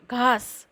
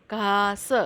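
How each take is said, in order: First: Said in the usual way. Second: घास stretched into "ghaa-sa"; sounded-out pronunciation. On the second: Shown as a demonstration. Teacher joining letter and vowel sign, घास split "ghaa-sa". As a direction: sound out घास slowly in two parts. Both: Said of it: "इसका उच्चारण".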